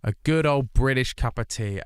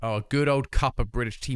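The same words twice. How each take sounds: First: Hammed-up British tea pride; mock British. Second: British given extra weight; stress on British. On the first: Telling chat about British tea, mock proud. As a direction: lean into the Britishness. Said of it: "I need to emphasize that". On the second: Shown as a demonstration. Correcting himself for chat, stressing British. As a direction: lean on the word British. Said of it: "My apologies".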